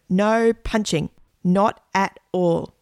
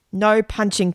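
First: Slow, spaced-out telling-off; slow, firm repeat. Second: Said in the usual way. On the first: A narrator's reading. Egbert scolding his brother for punching, slow and firm. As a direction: lay down the rule word by word.

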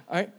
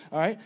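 Both takes have the same delivery.

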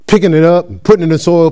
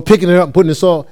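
First: Said in the usual way. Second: Fast, tumbling repetition; rushed repeat. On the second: Shown as a demonstration. Preacher mimicking restless replanting, fast. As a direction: rattle it off quickly.

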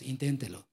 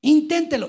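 First: Said in the usual way. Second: Inténtelo shouted high and loud; a loud, exclaimed Inténtelo. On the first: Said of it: "No, es". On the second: Shown as a demonstration. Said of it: "Es que es con signo de admiración".

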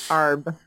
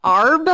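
First: "Arb." said lower and settled, H dropped, Boston style; Boston accent. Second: "Arb?" said with the H dropped and a Boston R; Boston accent. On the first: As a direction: land Boston "Arb" low and final. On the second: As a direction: try Boston "Arb" with a questioning lift. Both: Shown as a demonstration. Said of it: "perfect Boston accent".

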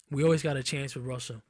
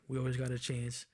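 First: Firm stress on "always" in "We always got a chance with Russell"; confident fan declaration; emphatic. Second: Quieter repeat, "always" still stressed; murmured reassurance to himself; soft echo. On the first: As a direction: lean on "always", falling at the end. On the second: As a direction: say it again to yourself, softly. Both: Shown as a demonstration.

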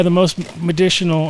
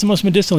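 First: "medicinal" with sh for the s; imitated mispronunciation. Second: Said in the usual way. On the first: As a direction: say "medicinal" as me-DISH-un-al. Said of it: "cannot say the word medicinal". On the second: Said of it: "he'd be like".

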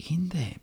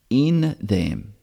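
First: Whispered "In them." for emphasis. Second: Said in the usual way. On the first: Shown as a demonstration. Preacher whispering "In them." to the congregation. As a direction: hush "In them." as a secret.

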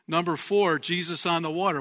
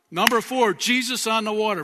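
First: Said in the usual way. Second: Louder and higher, punching Number; restating the sermon heading with more force; announced heading. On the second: Shown as a demonstration. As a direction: call out the point heading.

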